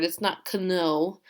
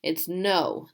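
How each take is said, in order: First: "kno" with a spoken k before no, slow; deliberately wrong "kno", hard k in front; wrong pronunciation. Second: "no" said as plain no, silent k; right way, just no; correct pronunciation. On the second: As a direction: say "no" with no k sound. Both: Shown as a demonstration. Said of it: "The K is silent".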